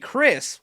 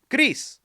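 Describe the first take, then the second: First: The name is said with English pronunciation. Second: The name is said with Spanish pronunciation. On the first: "which is the English way to say it" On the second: "the Spanish version"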